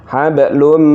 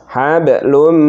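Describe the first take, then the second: The two takes are said the same way.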